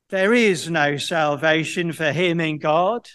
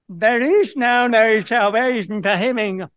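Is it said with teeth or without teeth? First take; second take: with teeth; without teeth. First: It is said menacingly, with teeth in. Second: It is said laughably, without teeth.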